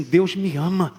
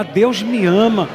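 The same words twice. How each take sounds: First: Said in the usual way. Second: Louder, slow, forceful declaration. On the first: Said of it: "Diga assim". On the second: Shown as a demonstration. Congregation told to say it with force. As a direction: proclaim it with conviction. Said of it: "Gente, fala com força isso".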